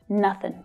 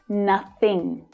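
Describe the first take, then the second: First: The word ends with a plain 'n' sound. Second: The word ends with a full 'ng' sound. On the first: "it sounds more like just nothing" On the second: "instead of nothing"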